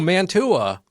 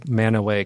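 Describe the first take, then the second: First: The word is said with a clear t sound. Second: The word is said without a t sound. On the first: The speaker calls it wrong. "I looked at it and I said" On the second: The speaker calls it right. "I only learned how to say Manaway correctly"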